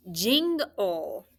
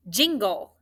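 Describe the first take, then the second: First: "jingle" drawn out as jing-ul, ng kept in the first part; split syllables. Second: Said in the usual way. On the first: Shown as a demonstration. Teacher shows which sounds stay together in jingle, split syllables. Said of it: "That I N G sound that you hear should stay together".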